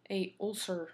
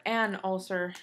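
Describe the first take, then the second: First: A said as its own word before ulcer; stress on A. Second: AN drawn out slowly before ulcer; stress on AN. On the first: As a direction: lean on the article A in "A ulcer". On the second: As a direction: correct it, leaning on a slow AN. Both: Shown as a demonstration. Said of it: "if you wanna be grammar perfectionist".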